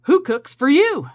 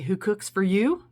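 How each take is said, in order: First: High, loud hoot of who cooks for you; loud owl call. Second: Lightly voiced owl call, words sung out; a hint of an owl asking who cooks for you; barred owl call. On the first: Shown as a demonstration. Urging viewers to call to the owls, loud owl call. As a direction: call it out like a barred owl in the dark. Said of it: "Why don't you say". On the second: Telling viewers what the owl says, lightly voiced owl call. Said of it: "likes to say".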